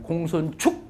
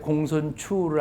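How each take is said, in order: First: The last syllable ends with a k sound. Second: The last syllable ends in an open vowel. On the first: The speaker calls it wrong. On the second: The speaker calls it right.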